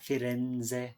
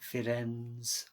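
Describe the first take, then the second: First: It is pronounced with Italian letter sounds. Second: It is pronounced with English letter sounds. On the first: The speaker calls it right. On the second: The speaker calls it wrong.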